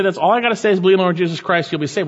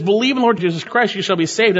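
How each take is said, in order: First: Quick, offhand and dismissive; glib quote. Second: High, loud and emphatic, each word driven home; fervent proclamation. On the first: Retold or imitated. Preacher mimicking people who reduce the gospel to a slogan, quick and glib. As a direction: rattle it off like a throwaway slogan. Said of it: "Sometimes people say". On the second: Acted. Preacher proclaiming the gospel to the congregation, fervent and loud. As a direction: proclaim it like the heart of the sermon.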